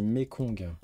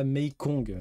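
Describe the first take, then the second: First: Mekong with a clean short e, "Mé-kong"; right Mekong. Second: Mekong said as "Meikong", with an ay sound in the first syllable; wrong Mekong. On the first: Streamer correcting his own quiz answer, says Mekong properly. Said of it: "c'est pas Mekong, c'est Mekong". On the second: Streamer correcting his own quiz answer, says Mekong the wrong way. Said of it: "alors c'est pas Mekong". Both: Shown as a demonstration.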